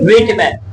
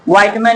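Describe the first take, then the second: First: The first syllable sounds like 'wit'. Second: The first syllable sounds like 'white'. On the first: The speaker calls it right. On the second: The speaker calls it wrong.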